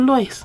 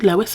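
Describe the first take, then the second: First: The name has its Welsh pronunciation. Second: The name has its English-American pronunciation. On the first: "the Welsh one" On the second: "English American"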